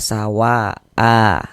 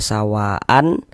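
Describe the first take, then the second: First: The word ends with a long vowel, no n. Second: The word ends with a short vowel plus n. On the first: This is how it is read when stopping on it. "Dibaca dengan panjang dua harokat, mad iwad" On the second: This is how the written form reads. "kalau dari segi tulisan kita baca sawaan"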